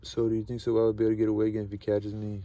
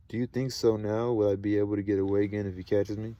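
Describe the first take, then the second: First: Rushed reread. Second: Said in the usual way. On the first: A narrator's reading.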